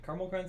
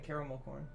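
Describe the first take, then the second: First: Caramel is said with two syllables. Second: Caramel is said with three syllables. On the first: The speaker calls it right. "sounds better" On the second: The speaker calls it wrong. "It's too many syllables"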